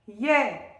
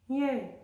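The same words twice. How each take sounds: First: The word is said loudly and forcefully. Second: The word is said softly and gently. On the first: "on est assez fort" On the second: "on va le faire tout doux"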